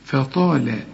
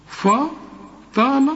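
First: فطال with a thin ف and a heavy ط; light fa, heavy ta; correct light fa. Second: فطال with a heavy, emphatic ف, drawn out and rising high; mock the mistaken heavy فطال; wrong heavy fa. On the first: Teacher gives the correct reading to the student. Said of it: "الفاء مرققة دائمًا". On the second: Teacher imitates the student's wrong reading. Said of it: "أيوه، أنا قلت غلط". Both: Shown as a demonstration.

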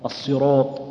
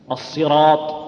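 First: الصراط with the final syllable rounded to سيروط; wrong rounded alif. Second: الصراط with a clear open alif after the heavy ر; correct heavy راء. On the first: Teacher showing the rejected reading. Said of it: "ما نقول". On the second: Teacher showing the correct reading. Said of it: "إذا تتبعها الألف نقول". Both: Shown as a demonstration.

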